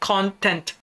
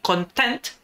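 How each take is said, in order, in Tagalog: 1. Nasa unang pantig ang diin. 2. Nasa ikalawang pantig ang diin. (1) "but content" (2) "Hindi content"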